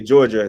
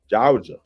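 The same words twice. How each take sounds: First: It is said the way non-locals say it. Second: It is said the way Georgia locals say it.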